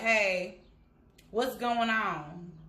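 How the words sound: It sounds tough and uninterested.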